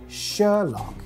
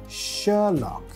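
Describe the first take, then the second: The two takes are said the same way.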